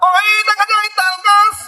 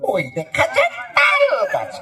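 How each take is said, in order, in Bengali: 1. এটি একজন ধর্মীয় ওয়াজ-প্রচারকের মতো করে আবৃত্তি করা হয়েছে। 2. এটি ইংরেজি মাধ্যমের স্কুলের শিশুর মতো করে পড়া হয়েছে। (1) "ওয়াজ মাহফিলের বক্তাদের হুজুরদের" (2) "শহর অঞ্চলে যারা ইংলিশ মিডিয়াম স্কুলে পড়ে, ছোট্ট বাচ্চা"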